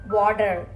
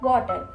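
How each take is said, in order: First: American accent, with a strong final r. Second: Indian accent, with a light final r. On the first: "in Americans they will call water. R will roll" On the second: "Normally our Indians will call water water, like that"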